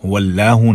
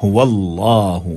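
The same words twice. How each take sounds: First: "हुवल्लाहु" with a light, flattened laa; everyday "हुवल्लाहु", thin L; wrong thin lam. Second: "हुवल्लाहु" with thick, rounded laa; full-mouthed tajweed "हुवल्लाहु"; full heavy lam. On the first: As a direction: say "हुवल्लाहु" conversationally, weak h. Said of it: "हुवल्लाहु नहीं". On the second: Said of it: "इसको पुर करके पढ़ेंगे". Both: Shown as a demonstration.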